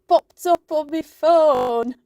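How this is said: It is said in a northern English accent. The speaker calls it wrong. "I just did that in a northern accent"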